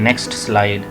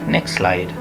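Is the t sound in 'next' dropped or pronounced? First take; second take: pronounced; dropped. First: The t in next is clearly pronounced. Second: The t in next is dropped. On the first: The speaker calls it wrong. "ना कि" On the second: The speaker calls it right. "नेक्स्ट ऐसे बोल देते हैं"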